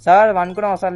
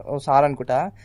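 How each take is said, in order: First: Louder, higher teasing question; loud teasing call. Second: Said in the usual way. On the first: Acted. Driver teasing the game passenger, loud and higher. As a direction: call it out to tease him.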